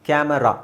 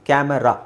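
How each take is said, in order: The two takes are said the same way.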